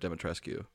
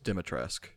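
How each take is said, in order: First: The final 'u' sound is pronounced aloud. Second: The final 'u' sound is left silent. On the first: The speaker calls it wrong. "Instead of Dimitrescu, which I've been saying" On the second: The speaker calls it right. "The U at the end is silent. So it's just Dimitrescu"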